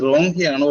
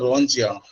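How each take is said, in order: First: "റോങ്" ending in a k sound plus vowel; hard K pronunciation. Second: "റോങ്" ending in a ch sound plus vowel; soft CH pronunciation. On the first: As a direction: say റോങ് as "RON-kai", with a hard k. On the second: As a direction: say റോങ് as "RON-chai", with a ch. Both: Shown as a demonstration. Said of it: "ഇതിന്റെ pronunciation ആർക്ക് പറയാം".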